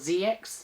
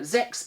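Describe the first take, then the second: First: The name is said as two separate letters. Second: The name is said as one syllable. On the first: This is how it is said outside Japan. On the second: This is how it is said in Japan.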